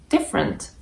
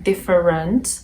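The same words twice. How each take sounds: First: The middle vowel is dropped. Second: Every syllable is pronounced fully. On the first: The speaker calls it right. "It's just different" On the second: The speaker calls it wrong. "I'm not saying different or something of the sort"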